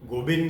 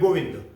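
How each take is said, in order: First: The second syllable starts with a b sound. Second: The second syllable starts with a v sound. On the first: This is the North Indian form. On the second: This is the standard form.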